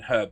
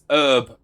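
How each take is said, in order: First: It is said the British way. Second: It is said the American way. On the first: The speaker calls it right. "rather than herb" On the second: The speaker calls it wrong. "they say it as herb"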